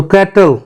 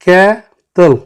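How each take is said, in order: First: Said in the usual way. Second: cattle as two separate beats, कै-टल; teacher dividing cattle in two; split into syllables. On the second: Shown as a demonstration. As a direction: pause between कै and टल in cattle. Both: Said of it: "टू syllable है".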